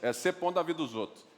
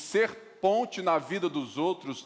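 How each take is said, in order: First: The words are clipped, with sounds cut short. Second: Every word is pronounced fully and carefully. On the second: "não é assim"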